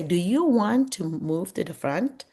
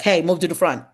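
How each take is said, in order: First: Gentle question. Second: A louder, clipped order to the student; bossy command. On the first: Teacher gently asks a student to move forward, kind question. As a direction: invite the student kindly. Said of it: "a question is always kinder than a statement". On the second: Teacher demonstrates the bossy way to seat a student, curt order. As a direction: boss the student around. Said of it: "See, that's very bossy". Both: Shown as a demonstration.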